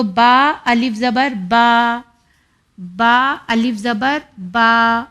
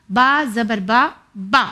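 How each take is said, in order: First: با with the aa drawn out long, about two beats; stretched vowel. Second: با said short and clipped, no stretch; short vowel. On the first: Teacher showing children how long to stretch, drawn-out aa. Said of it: "یعنی ہمیں اتنا کھینچنا ہے". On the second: Teacher contrasting the short sound, quick clipped a. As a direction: keep the a of با brief. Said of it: "صرف اتنا ہی sound آئے گا". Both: Shown as a demonstration.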